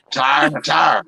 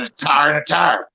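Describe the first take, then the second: First: "tire" said twice the same Southern way, tar-like. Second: "tire" and "tire" said identically in Southern. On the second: Explaining Southern speech: "tire" twice, same Southern sound. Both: Shown as a demonstration. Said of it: "If you say it in Southern".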